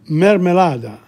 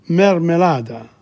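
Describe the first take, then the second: No difference in how they are said.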